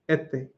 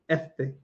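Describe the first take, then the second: The two takes are said the same way.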